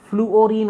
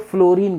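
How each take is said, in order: First: The word has three syllables, floo-o-reen. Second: The word is squeezed into two syllables, flo-reen. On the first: The speaker calls it right. "Actual pronunciation जो है फ्लूओरीन होता है" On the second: The speaker calls it wrong. "हम लोग crash करते हुए फ्लोरीन कर देते हैं"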